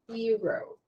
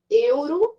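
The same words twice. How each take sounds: First: It is said with an English pronunciation. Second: It is said with a Brazilian Portuguese pronunciation. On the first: The speaker calls it right. "a pronúncia dessa moeda em inglês é euro" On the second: The speaker calls it wrong. "Euro a gente fala no Brasil"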